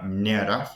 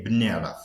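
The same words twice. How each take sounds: First: منعرف starting with an m-n cluster; m-n prefix. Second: بنعرف starting with a b-n cluster; b-n prefix. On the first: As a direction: say منعرف with m before the n. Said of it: "M, N, they say B". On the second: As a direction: say بنعرف with b before the n. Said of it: "they say بنعرف". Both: Shown as a demonstration.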